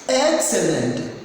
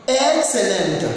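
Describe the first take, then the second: No difference in how they are said.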